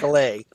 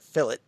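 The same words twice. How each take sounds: First: It is said with an American pronunciation. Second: It is said with a British pronunciation. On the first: "as opposed to" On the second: "how they pronounce it"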